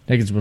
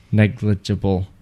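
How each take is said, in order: First: Quick, run-together Negligible; said fast. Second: Careful enunciation. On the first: Shown as a demonstration. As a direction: rattle off Negligible in one quick burst. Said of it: "say it three times fast". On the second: Real, not acted. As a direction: take each syllable of Negligible with care. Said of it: "That's hard to say".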